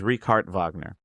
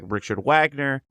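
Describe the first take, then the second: First: The name is said differently from its spelling. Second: The name is said the way it looks. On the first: The speaker calls it right. "It's Richard Wagner" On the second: The speaker calls it wrong. "his name looks like Richard Wagner, but it is not pronounced that way"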